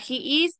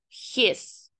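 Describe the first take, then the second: First: It is said as two full separate words. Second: It is said as one contracted syllable. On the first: "Para he is" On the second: "entonces tenemos his"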